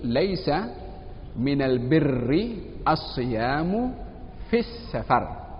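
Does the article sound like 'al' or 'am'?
al. The article is pronounced as al, standard style. It uses the standard eloquent dialect.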